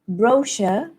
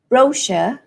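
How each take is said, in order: First: The stress is on the first syllable. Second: The stress is on the first syllable.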